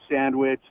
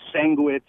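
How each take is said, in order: First: Sandwich is said with the standard pronunciation. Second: Sandwich is said with a local mispronunciation. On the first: The speaker calls it right. "instead of" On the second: The speaker calls it wrong. "how people butcher the English language out here in Albuquerque"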